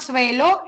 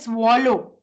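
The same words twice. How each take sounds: First: The first vowel sounds like an 'a'. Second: The first vowel sounds like an 'o'. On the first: The speaker calls it wrong. "It is not swallow" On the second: The speaker calls it right. "it is pronounced as O"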